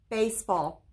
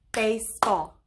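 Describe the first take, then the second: First: Said in the usual way. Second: "Baseball" in two separated beats; syllable by syllable. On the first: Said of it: "That's the word". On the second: Shown as a demonstration. Teacher clapping with pupils, "Baseball" broken into two beats. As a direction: split "Baseball" after the first syllable, as if clapping each part. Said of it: "Clap it and, and say it with me".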